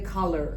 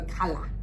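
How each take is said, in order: First: The ending has an r-coloured er sound. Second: The ending is an open ah without r. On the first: "In America, they go color" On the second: "we go color"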